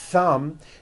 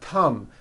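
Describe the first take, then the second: First: It begins with a breathy th sound. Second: It begins with a plain t sound. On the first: The speaker calls it right. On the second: The speaker calls it wrong.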